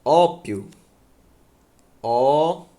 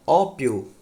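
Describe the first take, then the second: First: "Ópio" louder, Ó punched hard; stressed repeat. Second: "Ópio" with a loud stress on Ó; stress demo. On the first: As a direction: hit Ó in "Ópio" hard, twice. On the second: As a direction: lean into Ó in "Ópio". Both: Shown as a demonstration. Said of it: "Olha aqui".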